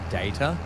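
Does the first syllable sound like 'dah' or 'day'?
day. The first vowel sounds like the word 'day'. "it's a really hard thing to say"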